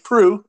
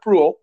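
First: The name is said without an L sound. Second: The name is said with an L sound. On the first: The speaker calls it right. "It's Annie Proulx" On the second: The speaker calls it wrong. "you just want to pronounce that L"

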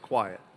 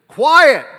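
First: The word is said calmly and softly. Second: The word is shouted loudly. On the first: "Jesus didn't have to holler" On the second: "He probably didn't say it like that"

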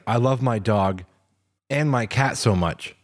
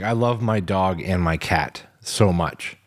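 First: There is a pause after "dog". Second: It is said without a pause after "dog".

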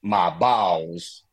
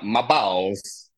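First: It is said with a Southern accent. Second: It is said with a Borat-like accent.

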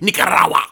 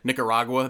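First: It is said in an exaggerated foreign style. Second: It is said in a plain English way.

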